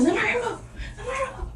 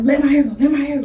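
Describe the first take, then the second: First: High squeaky laughing plea to let go; pleading high laugh. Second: Said in the usual way. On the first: Retold or imitated. Girl yanking her hair, she squeals high and laughing. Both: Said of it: "I'm like".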